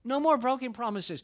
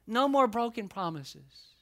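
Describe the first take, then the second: First: Higher, stronger no more; rising refrain. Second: Slow, punched no more; emphatic refrain. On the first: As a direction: lift the refrain up. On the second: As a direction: press the refrain. Preaching refrain. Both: Acted.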